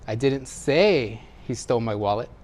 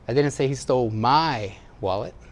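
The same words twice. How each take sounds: First: The word 'say' carries the main stress. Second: The word 'my' carries the main stress. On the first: It was communicated some other way than speaking. "Maybe I wrote it or gestured it" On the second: It was someone else's wallet. "Somebody else's"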